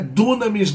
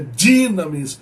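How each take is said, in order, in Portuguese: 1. A primeira sílaba se pronuncia 'du'. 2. A primeira sílaba se pronuncia 'di'. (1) "Dunamis não" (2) "é dinamis"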